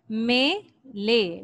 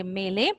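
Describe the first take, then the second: First: मेले drawn out very slowly, syllable by syllable; teacher stretching मेले before spelling it; slow syllable demo. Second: Said in the usual way. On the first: Shown as a demonstration. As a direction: pull मेले apart slowly for the children. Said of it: "मीम ये में". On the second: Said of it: "लाम बड़ी ये ले".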